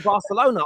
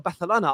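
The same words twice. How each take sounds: First: The c is said as a plain s. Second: The c is said as a lisped th. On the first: The speaker calls it wrong. "I don't even say Barcelona" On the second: The speaker calls it right. "I put the little lisp in there"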